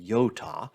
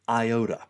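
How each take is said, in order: First: The word is pronounced in a Greek way. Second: The word is pronounced in an English way. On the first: The speaker calls it wrong. "we don't say iota" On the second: The speaker calls it right. "we say iota"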